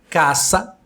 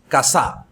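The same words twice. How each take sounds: First: The stress is on the first syllable. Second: The stress is on the second syllable. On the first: The speaker calls it right. "K, sílaba tônica" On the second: The speaker calls it wrong. "Se a sílaba tônica fosse sa, diríamos casa"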